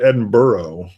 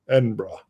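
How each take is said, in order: First: The ending sounds like 'borough'. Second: The ending sounds like 'bra'. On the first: The speaker calls it wrong. "I called it Edinburgh, like it was, which is how we would call like a New York section would be a borough" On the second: The speaker calls it right. "don't say borough, say brah"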